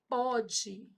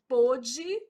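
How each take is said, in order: First: The stressed vowel is an open o. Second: The stressed vowel is a closed o. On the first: It refers to the present. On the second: It refers to the past.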